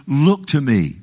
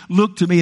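First: Said in the usual way. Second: God crying out Look to me, pitched up; emphatic call. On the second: Shown as a demonstration. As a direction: Look to me lifted higher and pressed. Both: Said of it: "Boy, what a word".

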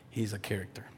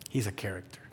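The two takes are said the same way.

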